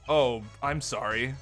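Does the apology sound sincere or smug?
smug. The apology sounds smug and insincere.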